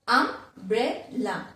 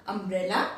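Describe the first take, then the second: First: "umbrella" slowly split as um, bre, la; syllable by syllable. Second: Said in the usual way. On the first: Shown as a demonstration. Teacher repeats a three syllable word, syllable by syllable. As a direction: sound out "umbrella" in three separate beats. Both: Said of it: "three syllable".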